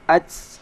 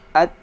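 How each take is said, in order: First: The final t has a strong, drawn-out hiss. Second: The final t has only a slight hiss. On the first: The speaker calls it wrong. "tidak perlu dibaca sampai ats" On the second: The speaker calls it right. "sedikit aja desisnya"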